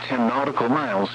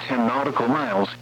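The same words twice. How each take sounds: The two takes are said the same way.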